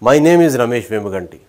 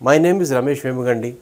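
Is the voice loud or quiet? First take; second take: loud; quiet. First: It is said in a louder, raised voice. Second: It is said in a quiet, low voice. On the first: The speaker calls it right. "Raise your voice by twenty percent" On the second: The speaker calls it wrong. "అనడం వేరు"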